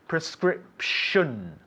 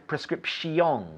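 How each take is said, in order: First: The ending is said as one syllable, 'shun'. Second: The ending is said as two syllables, 'shee-on'. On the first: The speaker calls it right. "We say prescription" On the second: The speaker calls it wrong. "We don't say pre prescription"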